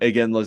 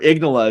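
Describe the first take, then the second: First: The name is said as I-gin-la. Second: The name is said as Ig-na-la. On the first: This is the usual form of the name. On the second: This is how the other person says the name.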